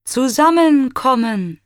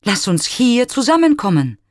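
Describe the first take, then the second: First: High, loud echo of the word zusammenkommen; eager echo. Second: High, loud invitation; calling out. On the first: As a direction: ring back zusammenkommen with longing. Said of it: "wiederholt Echo". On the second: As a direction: call out hopefully into the woods. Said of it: "spricht er". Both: A narrator's reading.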